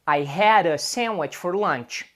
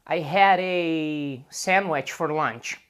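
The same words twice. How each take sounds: First: The article is said quickly, as in fast speech. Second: The article is drawn out, as if pausing to think. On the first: This is ordinary fast conversation. "O mais comum em conversas normais e rápidas é a pronúncia a" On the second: The speaker is stopping to think. "quando as pessoas param para pensar, elas podem talvez falar a"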